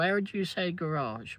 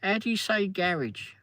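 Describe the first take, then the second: First: "garage" stressed on the second syllable, ga-RAZH; imitating coworkers, American garage. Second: "How do you say garage?" higher, quoting the Americans; light American mimicry; imitating coworkers. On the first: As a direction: quote them saying "garage" the American way. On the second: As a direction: mimic the dealership colleagues. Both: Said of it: "they were going".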